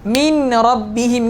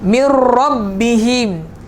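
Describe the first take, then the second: First: The n is clearly heard before the r. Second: The n is merged fully into the r. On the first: "Sepatutnya huruf nun tu ada min rabbihim kan" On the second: "Dah tak ada sebutan huruf nun"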